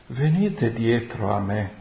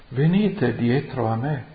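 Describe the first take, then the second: Both takes have the same delivery.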